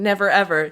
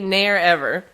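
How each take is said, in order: First: The v sound in the first word is pronounced. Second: The v sound in the first word is dropped. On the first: The speaker calls it wrong. "Instead of saying" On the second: The speaker calls it right. "Drop your G's and V's"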